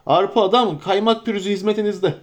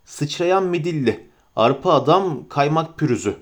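First: Higher, bustling innkeeper voice; innkeeper's introduction. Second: Calm narrator reading the lettering; reading a sign. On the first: Acted. Innkeeper Butterbur introducing himself to Frodo, eager. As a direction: Arpa Adam, Kaymak Pürüzü said with an eager bow in the voice. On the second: A narrator's reading. Narrator reading the inn sign aloud, calm and even.

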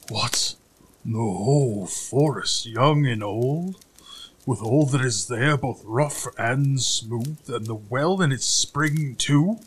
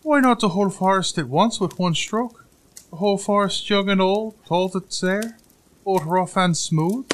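First: Very slow, incredulous giant voice; growling giant. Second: High-pitched, loud little-man voice; boastful little tailor. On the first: Giant repeating the tailor's boast, slow growl. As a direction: echo it slowly as a dumbfounded giant. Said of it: "growled the credulous giant". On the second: Tailor outbidding the giant's order, high and boastful. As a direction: brag in a high piping voice. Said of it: "asked the little tailor". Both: A narrator's reading.

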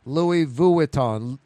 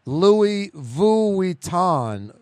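First: Vuitton stretched slowly as "vu-i-ton"; three-syllable Vuitton. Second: Vuitton said slowly as "vui-ton"; two-syllable Vuitton. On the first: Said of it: "He's saying it's three". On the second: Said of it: "I say, like, two syllables". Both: Shown as a demonstration.

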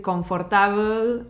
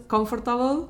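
First: Said in the usual way. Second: "comfortable" in English, pitched up; English word. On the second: Shown as a demonstration. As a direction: say "comfortable" with English sounds, higher. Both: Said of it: "en vez de decir confortable".

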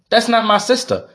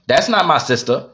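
First: Much higher, mocking echo of her words; higher incredulous mimicry of the wife; mocking repeat. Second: Said in the usual way. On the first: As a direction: throw her line back at her, pitched way up. Repeating the wife's excuse, mocking.

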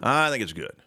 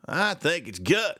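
First: Said in the usual way. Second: Slow, drawn-out mock Russian accent. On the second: Shown as a demonstration. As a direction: stretch each word in a Russian accent. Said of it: "my, my Russian accent".

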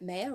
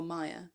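First: Meyer said as MAY-er; first syllable of Meyer rhymes with "day"; pronounced MAY-er. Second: Meyer said as MY-er; pronounced MY-er. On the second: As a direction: say Meyer with an "eye" vowel, like "my". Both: Shown as a demonstration. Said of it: "Is it Meyer or Meyer".

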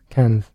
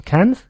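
First: Cannes. with a low falling tune; settled statement. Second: Cannes? with a rising, questioning tune; doubtful rising Cannes?; unsure question. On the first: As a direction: land Cannes. firmly, as an answer. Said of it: "that was in a mild Scottish accent". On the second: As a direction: try Cannes? tentatively, as a question. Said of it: "I think it's pronounced Cannes". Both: Shown as a demonstration.

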